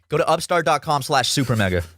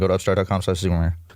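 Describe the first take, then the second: First: It is said clearly and distinctly. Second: It is said unclearly, mumbled.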